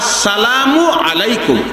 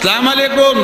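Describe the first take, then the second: First: The greeting begins with the full 'as' sound. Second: The greeting starts without the 'as' sound. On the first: The speaker calls it right. "সালাম দিতে হবে" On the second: The speaker calls it wrong. "এগুলি আর বলতে পারবেন না"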